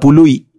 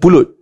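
First: The word ends in an ee sound, no t. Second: The word ends with a clear t sound. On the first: This is how people from Perlis say it. The speaker calls it right. "Orang Perlis makan pului" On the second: This is the standard form of the word. The speaker calls it wrong. "ustaz salah ustaz"

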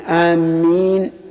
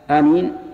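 First: The m sound is doubled and held longer. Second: The m sound is single and short. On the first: It means heading toward someone. The speaker calls it wrong. "بتشديد الميم بمعنى قاصدي" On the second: It means asking God to answer. The speaker calls it right. "بمعنى اللهم استجب"

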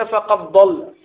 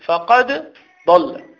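First: The d sound merges into the next consonant. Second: The d sound is pronounced clearly before the next consonant. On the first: The speaker calls it wrong. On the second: The speaker calls it right.

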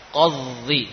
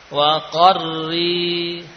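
First: The r is not trilled at all. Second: The r is trilled only lightly. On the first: The speaker calls it wrong. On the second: The speaker calls it right.

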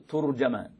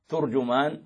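First: The t takes u, the j takes a. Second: Both the t and the j take a u vowel. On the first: "بضم التاء وفتح الجيم" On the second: "بضم التاء والجيم"

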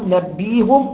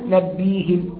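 First: The vowel after the h is u. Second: The vowel after the h is i. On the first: "بضم الهاء" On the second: "أو بكسرها"

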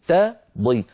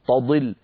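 First: The t is light and thin. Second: The t is heavy, almost emphatic. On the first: The speaker calls it right. "لابد من ترقيق التاء وتفخيم الضاد" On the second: The speaker calls it wrong. "هنا صارت التاء وكأنها طاء تقريبا"

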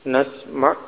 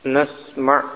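Both takes have the same delivery.

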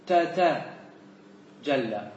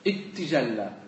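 First: The two t sounds at the start are separate. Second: The t sounds merge into one, preceded by a vowel. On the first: "هذا فك" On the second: "ومن أدغم ... أراد التخفيف فيقول"

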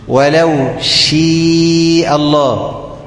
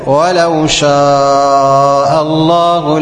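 First: The long vowel in shaa leans toward ee. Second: The long vowel in shaa is an open a.

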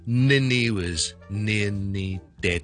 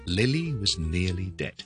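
First: The L and N sounds are mixed up. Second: The L and N sounds are kept distinct. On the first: The speaker calls it wrong. "就不要变成Lily was nearly dead，那就会很奇怪了" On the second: The speaker calls it right. "前面是Lily was nearly dead，so 留意L 和N 的分别"

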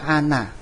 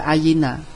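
First: The word has two syllables with no y sound. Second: The word has three syllables with a y sound. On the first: The speaker calls it wrong. "bukan dibaca ana" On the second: The speaker calls it right. "kita baca ayina"

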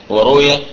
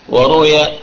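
Both takes have the same delivery.

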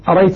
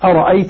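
First: The second glottal stop is left out entirely. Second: Both glottal stops are pronounced fully and clearly. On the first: "الكسائي يقرأ بدون همزة ثانية" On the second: "والباقون بهمزتين مرققتين"

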